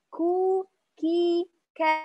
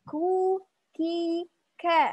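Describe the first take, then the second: Both takes have the same delivery.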